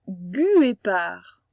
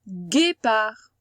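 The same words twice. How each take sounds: First: A u sound is heard after the g. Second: No u sound is heard after the g. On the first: The speaker calls it wrong. "on ne dit pas guépard" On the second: The speaker calls it right. "le U, on l'entend pas vraiment"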